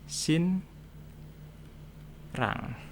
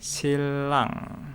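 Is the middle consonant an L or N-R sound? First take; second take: N-R; L. First: The middle consonants are an N then R sound. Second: The middle consonant is an L sound. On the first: It is read as written. "Ini secara tulisan tulisannya sin rang" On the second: It follows the pronunciation rules. "Misal ada lagi silang"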